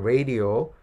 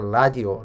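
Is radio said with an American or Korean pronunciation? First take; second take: American; Korean. First: It is said with an American pronunciation. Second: It is said with a Korean pronunciation. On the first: "So American pronunciation, like a radio" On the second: "pronounce like a radio, like Korean"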